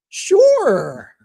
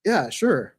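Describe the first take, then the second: First: Much higher and louder, an exaggerated eager "Sure"; hammed-up enthusiastic yes, "Sure" thrown high and loud; overeager sure. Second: "Yeah, sure" in an even, unexcited monotone. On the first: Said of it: "Alec doesn't actually talk like that". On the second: Retold or imitated. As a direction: mimic a calm monotone colleague agreeing. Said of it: "but he's monotone".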